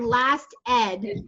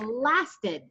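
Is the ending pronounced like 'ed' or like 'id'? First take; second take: ed; id. First: The ending is said separately like 'ed'. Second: The ending is blended in like 'id'. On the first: The speaker calls it wrong. "Instead of saying last ed" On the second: The speaker calls it right. "So it sounds like an I D rather than an E D"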